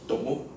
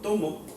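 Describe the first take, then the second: First: The stress is on the last syllable. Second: The stress is on the first syllable. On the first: Someone else took something in the past. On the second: I am taking something right now.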